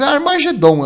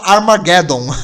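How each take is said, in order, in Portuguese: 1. O nome é pronunciado do jeito português. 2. O nome é pronunciado do jeito inglês. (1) "é mais legal de falar" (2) "em inglês eles falam"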